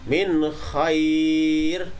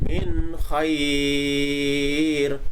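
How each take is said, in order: First: The vowel is held for a medium length. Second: The vowel is held for a long time. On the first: "itu berarti ada empat harokat" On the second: "nah itu berarti ada enam harokat"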